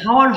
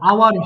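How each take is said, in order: First: The word begins with an audible h sound. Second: The word begins with a vowel, no h. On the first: The speaker calls it wrong. "হাওয়ার হবে না" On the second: The speaker calls it right. "আওয়ার হবে"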